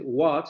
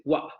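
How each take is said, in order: First: Said in the usual way. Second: "wa" with the final t swallowed into a glottal stop. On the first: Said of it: "en lugar de decir what". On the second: Shown as a demonstration. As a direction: cut "what" off at the throat, no t. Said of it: "van a decir wa". ("wa" con cierre glotal en lugar de la t)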